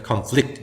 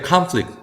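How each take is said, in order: First: Conflict as "kun-FLICT"; weak first vowel, stressed second syllable in conflict; end stress. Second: Conflict as "KAHN-flict"; front stress. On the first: Teacher contrasting verb with noun, conflict stressed as kun-FLICT. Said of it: "동사일 때는". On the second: Teacher contrasting noun with verb, conflict stressed as KAHN-flict. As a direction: stress the first syllable of conflict with open "ah". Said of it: "명사일 때". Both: Shown as a demonstration.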